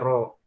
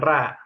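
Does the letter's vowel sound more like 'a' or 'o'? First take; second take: o; a. First: The letter has a heavy, rounded 'o' vowel. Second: The letter has a light, open 'a' vowel. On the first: The speaker calls it right. "tapi ro" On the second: The speaker calls it wrong. "eh bukan ra"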